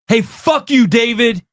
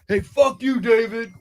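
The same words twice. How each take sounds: First: It is said loudly. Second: It is said quietly.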